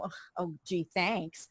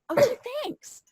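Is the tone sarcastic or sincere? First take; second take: sarcastic; sincere. First: It is said in a sarcastic, flip tone. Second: It is said in a sincere, grateful tone.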